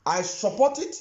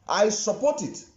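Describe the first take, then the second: First: "it" lifted with a rising tune; stress on it. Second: "I" hit firmly with a falling tune; "I" support it, settling down at the end; stress on I. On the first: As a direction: lean on "it" and let the voice rise. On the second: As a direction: press on "I" and let it fall. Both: Real, not acted. Repeating his support for emphasis.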